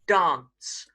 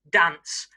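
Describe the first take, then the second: First: It is said in a southern English accent. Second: It is said in a northern English accent. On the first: "the south of England pronunciation" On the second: "one more example of the north"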